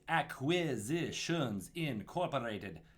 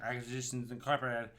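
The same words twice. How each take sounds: First: The words are crisply articulated with the tongue tip. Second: The words are slurred from the back of the throat. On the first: The speaker calls it right. "Enunciation, tip of the tongue" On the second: The speaker calls it wrong. "If you mess it up in the back of your throat when you start out"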